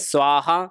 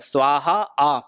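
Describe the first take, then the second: First: The final vowel is short and clipped. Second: The final vowel is drawn out and prolonged. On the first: The speaker calls it wrong. "अभी तक हम क्या बोल रहे थे?" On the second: The speaker calls it right. "आपको अंतिम में बुलाना है आ कर कर"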